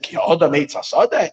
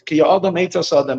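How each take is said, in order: First: It is said with a questioning tune. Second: It is said with a flat statement tune. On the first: It asks whether man is a tree. "even though the verse is asking it in a question" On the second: It states that man is a tree. "or you can just read it as a statement"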